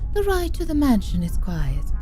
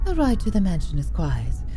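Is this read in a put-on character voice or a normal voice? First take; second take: character voice; normal voice. First: It is read in a put-on character voice. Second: It is read in a normal speaking voice.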